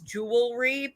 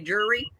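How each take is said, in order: First: The word is said in its full form. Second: The word is shortened to sound like jury. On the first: This is the standard form. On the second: This is how the family said it at home. "but we'd say jury"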